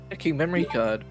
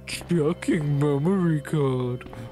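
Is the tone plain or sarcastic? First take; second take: plain; sarcastic. First: It is said in a plain, neutral tone. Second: It is said in a mocking, sarcastic tone.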